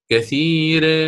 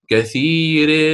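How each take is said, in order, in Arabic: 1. الحركة بعد الراء تميل نحو 'ee'. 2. الحركة بعد الراء تميل نحو 'ee'.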